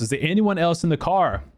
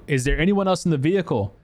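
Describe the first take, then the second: First: Higher-pitched, urgent repeated question; insistent retold yell. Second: Raised-pitch, mildly urgent question; retold yelling. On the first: Rescuer asking unresponsive girl about passengers, insistent high call. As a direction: press for an answer, imitating a call. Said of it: "and she wouldn't answer". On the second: Rescuer asking crying girl about passengers, mild retold yell. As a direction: lightly act calling out a question. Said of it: "I'm yelling at her".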